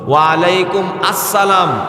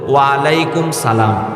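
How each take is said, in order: First: Alaikum is followed by a separate 'assalam'. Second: Alaikum is followed by a bare 'salam'. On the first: "ভুল" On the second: "ভুল"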